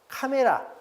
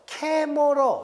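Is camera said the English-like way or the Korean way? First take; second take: Korean; English-like. First: Said with full vowels, the usual Korean way. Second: Said with reduced vowels, like the English word. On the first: This is the form most people commonly use. "워낙 많은 사람들이 피자, 카메라 해버리니까" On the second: This follows the original foreign pronunciation. "이렇게 바꾸는 게 더 원래 발음에 맞거든요"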